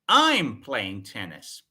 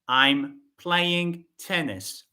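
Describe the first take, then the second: First: The first word is said louder than the rest. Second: No word stands out; the delivery is flat. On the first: "The focus is on I" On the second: "This sentence has no stress"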